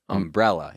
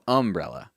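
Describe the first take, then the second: First: The stress is on the second syllable. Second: The stress is on the first syllable. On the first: "I say umbrella" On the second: "You go umbrella"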